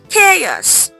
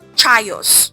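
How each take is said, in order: First: The word begins with a K sound. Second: The word begins with a CH sound. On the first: The speaker calls it right. "The C H sounds like K" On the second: The speaker calls it wrong. "or chios"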